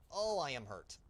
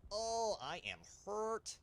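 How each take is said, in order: First: Loud, higher "oh, I am hurt"; mock hurt cry. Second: Slow, high-pitched playful wail; drawn-out mock hurt. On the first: Gamer playing up a hit in his plane, mock hurt cry. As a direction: play up being hurt, louder and higher. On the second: Gamer milking the damage to his plane, drawn-out mock wail.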